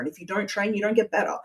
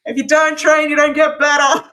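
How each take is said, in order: First: It is said at a normal conversational volume. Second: It is said louder, projected for emphasis.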